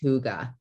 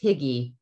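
First: It is said with a Danish-style pronunciation. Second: It is said with an English-style pronunciation. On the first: The speaker calls it right. "it's technically pronounced hygge" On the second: The speaker calls it wrong. "you don't say Higgy that way in real life. That's not how the Danish pronounce it"

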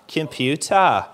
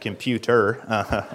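First: The final syllable ends in 'ah' without an R. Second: The final syllable ends with a clear R sound. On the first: The speaker calls it wrong. "whenever you see an ER, it's pronounced ah" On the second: The speaker calls it right. "no, it's a computer"

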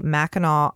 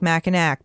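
First: The last syllable ends in an 'aw' sound. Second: The last syllable ends in an 'ack' sound. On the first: The speaker calls it right. "what I'm going to pronounce correctly" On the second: The speaker calls it wrong. "Don't it spell like Mackinac, but don't say that"

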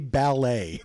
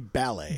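First: The stress is on the second syllable. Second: The stress is on the first syllable. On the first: This is the American way of saying it. "they cannot say ballet" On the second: This is the British way of saying it. "They will always say ballet. ... With the emphasis on bal"

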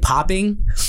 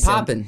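First: The word is said stiffly with a full ending. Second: The word is said casually with a clipped ending. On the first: The speaker calls it wrong. "and you're like, yeah, this movie's going to be really popping" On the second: The speaker calls it right. "I said poppin'. And I made it sound natural"

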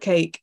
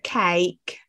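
First: It is said in a standard English accent. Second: It is said in an Essex accent.

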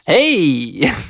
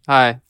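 First: The greeting sounds lively and enthusiastic. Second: The greeting sounds flat and unenthusiastic.

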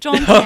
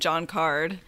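First: The surname does not sound like 'card'. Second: The surname sounds like the word 'card'. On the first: This is how the name should be said. The speaker calls it right. "actually, it's Caird" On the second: This is how the name was mispronounced. The speaker calls it wrong. "they mispronounced his name at the Tonys. They called him John Card"

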